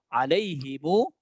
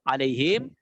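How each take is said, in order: First: The word ends with the syllables himu. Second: The word ends with the syllable him. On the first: "urutan yang kedua, alaihimu" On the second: "Alaihim kan sudah"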